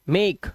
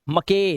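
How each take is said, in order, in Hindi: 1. आखिरी e silent है, इसलिए यह एक ही अक्षर है। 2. आखिरी e की आवाज़ भी सुनाई देती है, जिससे एक अतिरिक्त अक्षर बनता है।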